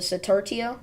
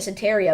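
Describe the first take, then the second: First: The name has a T sound near the end. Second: The name has no T sound near the end. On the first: The speaker calls it right. "there's a T close to the end there" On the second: The speaker calls it wrong. "I've been pronouncing it Sataria"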